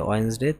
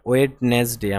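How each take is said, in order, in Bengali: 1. এটি দুই শব্দাংশে বলা হয়, d ছাড়া। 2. এটি তিন শব্দাংশে বলা হয়, d সহ। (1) "ওয়েডনেসডে না ওয়েন্সডে" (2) "নট ওয়েডনেসডে"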